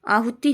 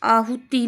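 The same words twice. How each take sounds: First: आहुति with short final i; correct short ending. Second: आहुति with long final ee, aahutee; wrong form. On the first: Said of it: "ती छोटी आएगी". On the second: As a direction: draw out the end of आहुति. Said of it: "नहीं होता है". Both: Shown as a demonstration.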